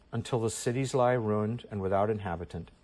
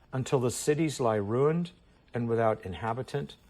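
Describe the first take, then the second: The two takes are said the same way.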